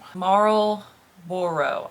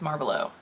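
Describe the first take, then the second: First: The word is split into two separate parts. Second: The word is run together in one slurred piece. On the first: The speaker calls it right. "I have to say it as two separate words or I cannot say it" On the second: The speaker calls it wrong. "Otherwise it's Marlboro"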